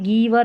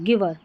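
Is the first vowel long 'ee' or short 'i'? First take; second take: long ee; short i. First: The first vowel is a long 'ee'. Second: The first vowel is a short 'i'. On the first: The speaker calls it wrong. "फिर ये गीवर नहीं बोलेंगे" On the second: The speaker calls it right. "आई का उच्चारण यहाँ पर short ई के रूप में है"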